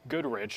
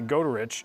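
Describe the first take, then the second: First: The name is said as Goodrich. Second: The name is said as Goderich. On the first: The speaker calls it wrong. "that's not Goodrich" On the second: The speaker calls it right. "That's actually Goderich"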